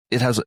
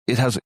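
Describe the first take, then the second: No difference in how they are said.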